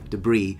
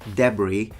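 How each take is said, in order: First: It is said with an American accent. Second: It is said with an English accent. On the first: "with an American accent" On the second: "with an English accent"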